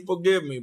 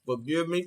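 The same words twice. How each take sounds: First: Forgive me, louder and higher; pleading louder. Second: Said in the usual way. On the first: Real, not acted. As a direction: press the plea harder, louder. Repeated plea, louder take.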